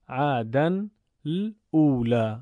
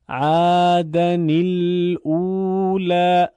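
First: عدن الاولی read slowly with the tanween clashing into the next word; hard-to-read version. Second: عادن الاولی slow and louder, linking with an added i, ädan-i-lulā; recitation with added kasra. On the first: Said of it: "خواندن کلمه ... همزهٔ وصل دشواره". (عدن الاولی با تلفظ دشوار و آهسته) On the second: (عادن الاولی با کسرهٔ اضافه، آهسته و بلند) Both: Shown as a demonstration.

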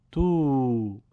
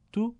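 First: تو as a drawn-out "tuu"; long vowel. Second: تو as a brief "tu"; short vowel. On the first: Teacher reads the madd drill, تو held long. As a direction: stretch تو over two beats. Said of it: "با واو مدی به صورت کشیده". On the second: Teacher reads the damma drill, تو kept short. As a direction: say تو short, one beat. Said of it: "کوتاه تلفظ بکنید". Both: Shown as a demonstration.

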